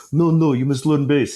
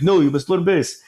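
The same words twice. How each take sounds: First: Crappy Arabic accent imitation; dad's bad Arabic accent. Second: Put-on higher crappy Arabic accent; louder bad Arabic dad voice. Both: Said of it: "my really crappy, you know, Arabic accent".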